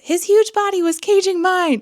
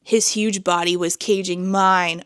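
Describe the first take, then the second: First: It is read in a put-on dramatic voice. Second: It is read in her ordinary speaking voice. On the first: The speaker calls it right. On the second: The speaker calls it wrong.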